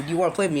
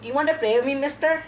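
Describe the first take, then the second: First: Said in the usual way. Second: Put-on high, childlike pleading question; imitated kindergartner. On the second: Kindergartner asks a stranger to play, high and childlike. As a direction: pipe up like a little kid asking. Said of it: "one of those kindergartens where they ask".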